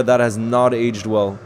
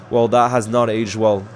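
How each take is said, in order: First: Slow, deliberate weight on "that"; slow wry repeat of the remark for chat; slow pointed repeat. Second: Said in the usual way. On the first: Real, not acted. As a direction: let "that has not aged well" sink in word by word.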